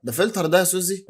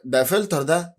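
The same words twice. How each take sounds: First: ده pushed up high and stressed at the start; ده فلتر ده said higher, pressing on ده; insisting it's a filter. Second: Said in the usual way. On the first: Shown as a demonstration. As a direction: lean on the first ده, teasing Suzy. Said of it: "المناخير دي فلتر يا سوزي".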